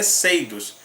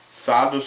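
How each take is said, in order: First: The name is said the original English way. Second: The name is said the Portuguese way. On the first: "a pronúncia correta do nome dessa banda é Seidos" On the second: "eu prefiro falar Sadus porque soa melhor em nosso português"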